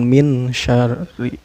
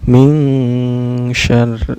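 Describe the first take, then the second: First: The n is pronounced clearly without nasal hum. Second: The n is hidden with a nasal hum. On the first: The speaker calls it wrong. "Bukan min syarri" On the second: The speaker calls it right. "Cara bacanya disamarkan ya. Samarkan dan dengung"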